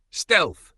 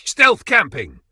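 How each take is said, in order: First: High, loud sarcastic echo. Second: High, loud hammed-up announcement; excited. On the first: Real, not acted. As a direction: throw the word back at him. Mocking echo of his word. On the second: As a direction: blurt it out like a proud kid. Mocking Brendan stealth camping.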